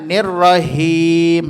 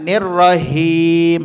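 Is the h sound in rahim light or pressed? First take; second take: light; light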